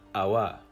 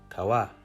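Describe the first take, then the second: First: It starts with a glottal stop. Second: It starts with a plain K sound. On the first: "as a glottal stop" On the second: "heard as a K sound"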